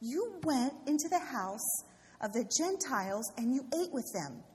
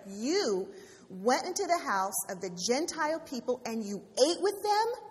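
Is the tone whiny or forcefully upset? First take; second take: whiny; forcefully upset. First: It is said in a whining voice. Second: It is said in a forceful, upset voice.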